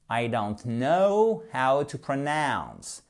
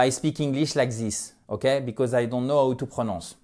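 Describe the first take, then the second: First: Slow English accent with long gliding diphthongs; corrected English accent. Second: English with French vowels and even syllables; bad French-accented English. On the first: Teacher showing learners the proper way, slow English accent. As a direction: model careful English accent, stretching "know" and "pronounce". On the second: Teacher imitating what learners must stop doing, French accent. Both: Shown as a demonstration. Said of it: "Je veux plus que vous prononciez".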